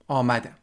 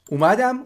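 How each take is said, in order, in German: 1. Es verwendet die formelle Standardaussprache. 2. Es verwendet die alltägliche umgangssprachliche Aussprache.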